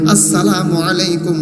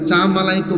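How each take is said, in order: First: Every syllable is pronounced fully and carefully. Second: The opening syllables are slurred into 'cha'. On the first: The speaker calls it right. "উচ্চারণ শুদ্ধ করে বলতে হইবে" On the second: The speaker calls it wrong. "অনেকে কিন্তু বলে"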